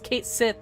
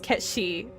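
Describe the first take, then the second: First: The name is said like English 'Kate Sith'. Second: The name is said like 'Ketchi'. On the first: This is the officially confirmed game pronunciation. The speaker calls it wrong. "they confirmed that the correct pronunciation was" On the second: This is the Scottish Gaelic pronunciation. The speaker calls it right. "His name is Kate is Ketchi"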